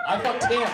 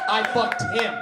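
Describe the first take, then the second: First: Louder, laughing through it; laughing repeat. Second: Louder, flat boast; proud blunt admission; emphatic declaration. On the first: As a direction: crack up on the repeat. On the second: Joke repeated for emphasis. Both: Acted.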